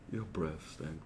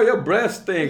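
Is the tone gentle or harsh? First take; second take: gentle; harsh. First: The tone is soft and affectionate. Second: The tone is blunt and mocking. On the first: The speaker is being kind about it. "baby, your breath stink, baby. Can you please brush it?" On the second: The speaker is being unkind about it. "dang, girl, your breath stink"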